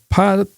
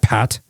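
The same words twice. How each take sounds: First: The T at the end is soft. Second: The T at the end is hard. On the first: "he'd try to soften the T" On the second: "instead of Pat"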